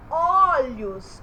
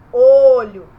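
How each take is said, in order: First: "olhos" with a wide open "o"; stressed open first vowel in "olhos"; open O sound. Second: "Olho" with a rounded closed "o"; very loud, rounded first vowel in "Olho"; closed O sound. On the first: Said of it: "eu tô falando um O". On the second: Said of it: "mas não tô falando". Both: Shown as a demonstration.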